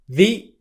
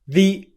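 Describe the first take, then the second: First: The vowel is a short 'ee' sound. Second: The vowel is a short 'ee' sound.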